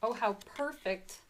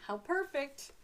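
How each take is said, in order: First: Said in the usual way. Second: Delighted. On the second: Real, not acted. Repeats with more delight.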